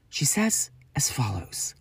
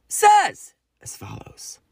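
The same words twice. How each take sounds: First: Whispered announcement. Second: Drawn-out announcement. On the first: Announcing Ali's message. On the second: Announcing brother's message. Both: Real, not acted.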